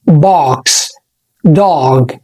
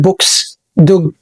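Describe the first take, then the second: First: The vowel is an open 'ah' sound. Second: The vowel is a rounded 'o' sound. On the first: The speaker calls it right. "بنقول اه، فبنقول" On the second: The speaker calls it wrong. "مش بنقول عليه او، فمش بنقول"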